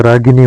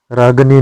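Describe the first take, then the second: First: रागिनी with i after g; correct vowel. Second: रागनी with no i after g; wrong vowel. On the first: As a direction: say रागिनी as "raagini". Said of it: "होता है". (रागिनी में गि) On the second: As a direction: say रागनी as "raag-ni". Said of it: "नहीं होता है". (रागनी में इ नहीं) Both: Shown as a demonstration.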